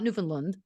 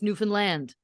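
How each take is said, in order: First: The final syllable is not stressed. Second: The stress falls on the final syllable. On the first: The speaker calls it wrong. "It's not Newfoundland" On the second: The speaker calls it right. "It's Newfoundland. That's how we pronounce that"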